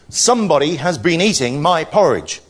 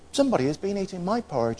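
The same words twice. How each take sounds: First: The voice is deep, big and growly. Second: The voice is soft and quiet. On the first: "in his great growly voice" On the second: "quiet voice"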